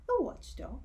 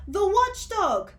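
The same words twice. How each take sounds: First: Lightly puzzled question; quizzical. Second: High, loud, slow panicked shout; terrified shout. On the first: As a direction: ask it as if unsure. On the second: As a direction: scream out the warning. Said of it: "shouted another". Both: Acted.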